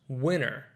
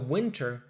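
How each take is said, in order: First: The T sound is dropped after the N. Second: The T sound is clearly pronounced.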